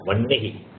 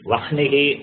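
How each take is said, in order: First: The n is said before the h sound. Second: The h sound is said before the n. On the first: The speaker calls it right. "that Nakara should be pronounced first and then Hakara" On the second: The speaker calls it wrong. "you should not uh, say Vahnihi"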